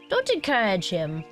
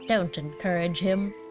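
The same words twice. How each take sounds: First: It is read in a German accent. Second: It is read without a German accent.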